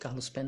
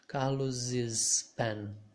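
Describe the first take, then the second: First: Carlos is followed directly by pen, no extra syllable. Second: An extra syllable is added after Carlos before pen. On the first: "You can say Carlos pen as well" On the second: "you can also say Carlos's pen"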